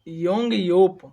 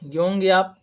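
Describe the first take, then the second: First: The last syllable is said as 'yop'. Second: The last syllable is said as 'yap'. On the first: The speaker calls it right. "योप" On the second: The speaker calls it wrong. "याप नहीं"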